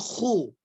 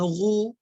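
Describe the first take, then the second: First: It starts with a rasping kh sound. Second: It starts with an r sound. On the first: The speaker calls it right. "tapi khu" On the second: The speaker calls it wrong. "jangan ru"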